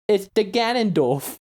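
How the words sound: It is said in a dumb, babyish voice. "I say duh, like a baby"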